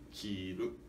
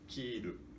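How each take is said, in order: First: The pitch starts low and rises. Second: The pitch starts high and falls. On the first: It means to wear. "para significar vestir, eh, precisamos de dizer eh, kiru, eh, grave, agudo" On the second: It means to cut. "cortar significa, eh, nós pronunciamos kiru, eh, agudo, grave"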